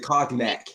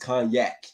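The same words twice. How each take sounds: First: The G sound in the middle is pronounced. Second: The G sound in the middle is silent. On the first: The speaker calls it wrong. "You said cognac" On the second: The speaker calls it right. "you don't pronounce the G"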